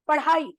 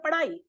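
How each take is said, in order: First: The middle consonant is an aspirated flap. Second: The middle consonant is a plain unaspirated flap. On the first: It is the standard form. The speaker calls it right. "पढ़ाई नहीं होता है" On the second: It is a local way of speaking. The speaker calls it wrong. "बच्चे बोलते हैं पढ़ाई"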